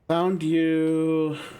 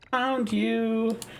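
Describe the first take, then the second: First: It is said in a normal-pitched voice. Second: It is said in a very high-pitched voice.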